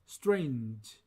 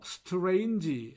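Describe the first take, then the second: First: The word is said with one syllable. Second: The word is said with five syllables. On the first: The speaker calls it right. "이 모음 없이 어, 단음절로 발음합니다" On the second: The speaker calls it wrong. "오음절로 발음합니다만"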